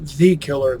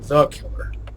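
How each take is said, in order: First: The article is said with a full 'thee' vowel. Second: The article is said with a reduced 'thuh' vowel. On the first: The speaker calls it wrong. "Not the killer" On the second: The speaker calls it right.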